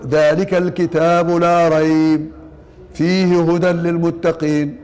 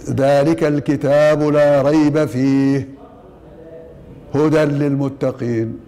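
First: The pause comes after the words la rayb. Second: The pause comes after the word fihi. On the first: There is no doubt; in it is guidance. The speaker calls it wrong. "فيقف على لا ريب" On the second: There is no doubt in it; it is guidance. The speaker calls it right. "فهنا الوقف على فيه"

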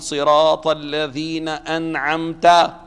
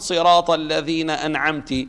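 First: The last word ends with an a vowel. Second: The last word ends with a u vowel. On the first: The favour is attributed to the one being addressed. The speaker calls it right. "من الذي أنعم؟ تخاطب الله سبحانه وتعالى" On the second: The favour is attributed to the speaker. The speaker calls it wrong. "أنت لم تنعم"

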